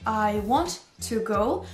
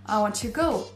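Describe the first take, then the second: First: The words are said separately, not linked. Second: The words are linked together smoothly. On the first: "au lieu de dire" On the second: "Vous allez lier ces deux mots entre eux"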